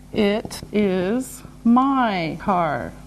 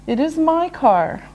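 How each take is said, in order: First: Word by word, softly; slow and deliberate. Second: Said in the usual way. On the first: Shown as a demonstration. Teacher modelling the answer, slow and separated. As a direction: separate every word for learners.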